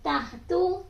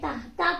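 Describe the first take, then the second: First: The word ends in an u vowel. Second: The word ends in an a vowel. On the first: The speaker calls it wrong. "नहीं पढ़ेंगे" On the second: The speaker calls it right. "बल्कि ताहता पढ़ेंगे"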